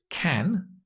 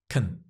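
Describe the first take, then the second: First: The word is stressed with a full vowel. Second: The word is unstressed with a reduced vowel. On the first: "form is can" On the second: "the weak unstressed form is can"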